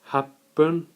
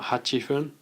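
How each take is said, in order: First: The number is shortened with a doubled p sound. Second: The number is said in full before fun. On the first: The speaker calls it right. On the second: The speaker calls it wrong. "not hachifun"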